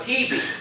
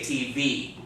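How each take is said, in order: First: The stress is on the first syllable. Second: The stress is on the last syllable. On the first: The speaker calls it wrong. "It doesn't sound right" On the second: The speaker calls it right. "On the last syllable. We say T V"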